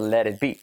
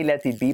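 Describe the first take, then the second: First: The T is a quick tap like R. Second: The T is a hard, clear stop. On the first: The speaker calls it right. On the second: The speaker calls it wrong. "We don't say"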